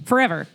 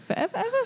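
First: Said in the usual way. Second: Ever pitched way up, soft; high quizzical rise. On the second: Shown as a demonstration. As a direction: squeak out the word ever as a question.

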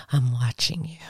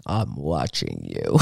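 First: Breathy whisper, menacing; whispered threat. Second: Very low, slow creepy voice. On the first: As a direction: whisper it like a stalker. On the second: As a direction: drop low and drag it out like a horror villain. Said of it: "I gotta find a creepy voice". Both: Pretend.

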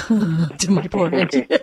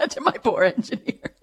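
First: Slow words through laughter; laughing. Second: Giggling words, pitched up; laughing, higher. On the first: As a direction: chuckle while talking. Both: Real, not acted. Laughs at own joke.

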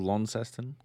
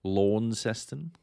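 First: Short first vowel in Launceston; Launceston with short 'Lon'. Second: Slow, stretched LAWN in Launceston; Launceston mispronounced 'Lawn'. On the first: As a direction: say Launceston as LON-seston. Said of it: "Not Launceston". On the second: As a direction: draw out the aw in Launceston. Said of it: "Did you know it's called". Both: Shown as a demonstration.

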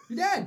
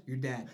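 First: Loud, high-pitched exclamation; comic outburst of doom; emphatic verdict. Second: Said in the usual way. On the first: Real, not acted.

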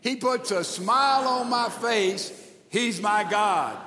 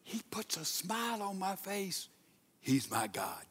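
First: Full-voice recitation. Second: Hushed recitation. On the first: Preacher leading church in reading together, full-voiced. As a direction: proclaim it out to the whole room. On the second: Preacher showing church how to say it, hushed. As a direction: say it hushed, almost to yourself. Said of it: "Now let's say it like this". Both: Shown as a demonstration.

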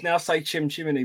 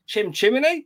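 First: Said in the usual way. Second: Higher mock-Cockney with a questioning lift; hammed-up Cockney, rising at the end; Mary Poppins sweep. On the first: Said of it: "[name] says". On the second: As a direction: say it like a musical chimney sweep, pitched up.

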